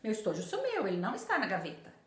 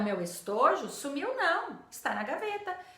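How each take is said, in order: First: The pause falls before the word não. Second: The pause falls after the word não.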